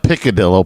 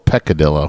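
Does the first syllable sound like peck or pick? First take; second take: pick; peck. First: The first syllable sounds like pick. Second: The first syllable sounds like peck. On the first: The speaker calls it wrong. "Not Piccadillo" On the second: The speaker calls it right. "That's peck"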